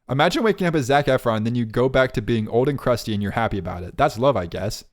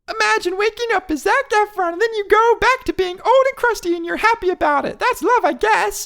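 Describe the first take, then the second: First: It is read in the speaker's own voice. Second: It is read imitating the other host's voice.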